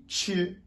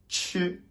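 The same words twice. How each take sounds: No difference in how they are said.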